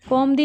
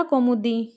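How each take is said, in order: First: "कौमुदी" without the u, "kaum-di"; wrong pronunciation. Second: "कौमुदी" with u in the middle, "kau-mu-di"; correct pronunciation. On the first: Teacher drilling the mistake to avoid, "कौमुदी" as "kaum-di". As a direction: say "कौमुदी" as two syllables, kaum-di. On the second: Teacher giving students the right form, "कौमुदी" in three syllables. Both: Shown as a demonstration. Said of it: "नहीं होता".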